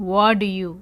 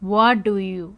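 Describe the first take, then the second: The two takes are said the same way.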